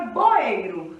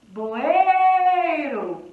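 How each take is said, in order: First: Said in the usual way. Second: Loud call with a long "ei" in "Boeiro"; calling out the word. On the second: Shown as a demonstration. Teacher calling the word to find the syllable, stretched loud call. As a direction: call "Boeiro", holding the middle "ei", then fall. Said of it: "Chama a palavra boeiro".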